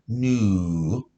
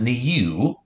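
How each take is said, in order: First: The vowel is a plain 'oo' sound. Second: The vowel has a 'y' glide before 'oo'. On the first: The speaker calls it right. "Saying its first sound of ooh" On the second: The speaker calls it wrong. "It's not new"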